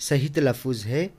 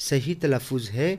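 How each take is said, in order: No difference in how they are said.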